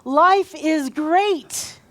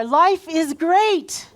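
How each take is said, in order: First: Slow, higher, louder, each word leaned on; big stretched call with weight on "great"; more emphasis. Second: Louder and higher, stretched slow; rally the crowd with a big slow call; say it out there. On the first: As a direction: draw out "Life is great" very slowly. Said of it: "put more emphasis on this". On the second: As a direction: belt "Life is great" across the room. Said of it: "Really say it out there". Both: Shown as a demonstration.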